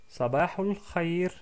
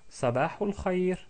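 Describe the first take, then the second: The two takes are said the same way.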